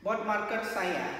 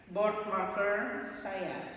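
First: Said in the usual way. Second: Slow model phrase. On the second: Shown as a demonstration. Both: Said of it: "Bagaimana mengatakan".

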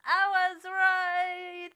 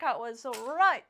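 First: Slow, loud, higher victory gloat; triumphant sing-song told-you-so; drawn-out gloat. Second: Said in the usual way. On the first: Real, not acted. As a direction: stretch it out, savoring the win.

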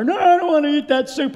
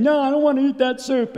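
First: Much higher, louder mimicked protest; repeated child's refusal. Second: Put-on higher, whining little girl protest; imitated child's refusal. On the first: Father imitating his daughter's second refusal of supper, high, loud whiny protest. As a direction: draw out a stubborn child's whine. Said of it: "I heard Sarah say again". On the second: Father imitating his daughter refusing supper, high-pitched protest.

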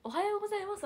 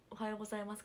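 First: Much higher, louder おはようございます with a big lift on よ; overdone greeting. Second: Said in the usual way. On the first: Shown as a demonstration. To a senior in the club hall, an overdone loud greeting. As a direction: belt out おはようございます like an eager junior. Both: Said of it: "はさすがに".

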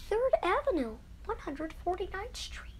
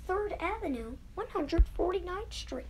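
Both takes have the same delivery.

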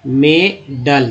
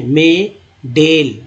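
First: "मे डल" slowly, second vowel a short uh; correct schwa vowel. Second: "मे डेल" slowly, second vowel as long e; wrong E vowel. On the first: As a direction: sound out "मे डल" in two slow parts, ending -dul. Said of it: "तो उच्चारण सही है". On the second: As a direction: sound out "मे डेल" in two slow parts, ending -del. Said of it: "गलत उच्चारण हो जा रहा है". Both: Shown as a demonstration.

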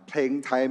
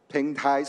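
No difference in how they are said.

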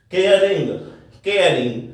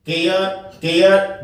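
First: केयरिंग with a clear r before the ing; sounded r demo. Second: केयर said with the r silent, ending on the vowel; silent r demo. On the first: Teacher shows the r sounded in केयरिंग. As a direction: say केयरिंग as kay-ring, r fully sounded. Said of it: "र को मैं बोल रहा हूं". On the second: Teacher shows केयर with silent r. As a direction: say केयर as kay-uh, no r sound. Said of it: "जब मैं केयर बोल रहा हूं, तब आर जो है साइलेंट है". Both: Shown as a demonstration.

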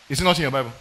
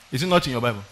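No difference in how they are said.

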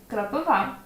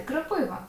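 First: Кропива stressed on the final А; correct stress. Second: Кропива stressed on І, the Russian way; wrong Russian-style stress. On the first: Teacher gives the correct Ukrainian stress. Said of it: "Але ні". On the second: Teacher shows the common wrong stress. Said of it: "Під впливом російської мови нам хочеться". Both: Shown as a demonstration.

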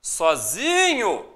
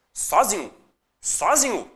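First: "Sozinho" with ZI stretched long and slow; stress on ZI. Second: "Sozinho" with the first syllable SO punched; wrong stress on SO. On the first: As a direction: drag out the ZI in "Sozinho". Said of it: "a sílaba tônica é o zi". ("Sozinho" com o ZI bem alongado) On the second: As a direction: test "Sozinho" stressed on SO, as a mistake. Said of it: "Como você pronuncia aquela palavra?". ("Sozinho" com a tônica errada no SO) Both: Shown as a demonstration.

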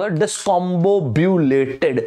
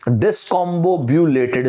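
First: Discombobulated stretched out very slowly, every syllable clear. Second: Discombobulated said again very slowly, syllable by syllable; slow repeat. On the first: Teacher slowly pronouncing discombobulated for students to repeat. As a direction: spell discombobulated out slowly, dis-com-bob-u-la-ted. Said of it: "एक tough word देता हूं". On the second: Teacher repeating discombobulated slowly so students catch it. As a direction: drag discombobulated out slowly for the class. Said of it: "क्या बोला दोनों मैंने". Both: Shown as a demonstration.

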